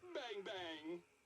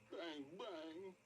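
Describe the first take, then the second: First: It is said in a happy tone. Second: It is said in a sad tone.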